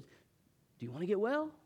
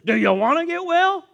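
First: The question sounds gentle and caring. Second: The question sounds cold and dismissive. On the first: The asker feels compassion for the listener. The speaker calls it right. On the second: The asker looks down on the listener. The speaker calls it wrong.

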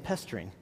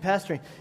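First: The first vowel sounds like the one in 'pest'. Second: The first vowel sounds like the one in 'pass'. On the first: "he was saying pestering, because he has that British accent" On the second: "and I kept hearing the word pastoring, only he wasn't saying it like that"

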